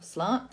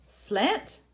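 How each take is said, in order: First: "slant" with a long AH as in "father"; "slant" said like "slahnt"; broad-a pronunciation. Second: "Slant" with a flat short A as in "ant"; "Slant" rhyming with "pant"; short-a pronunciation. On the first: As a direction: say "slant" with a broad, open "ah" vowel. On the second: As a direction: say "Slant" with the vowel of "cat". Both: Shown as a demonstration. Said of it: "depending on how you say it".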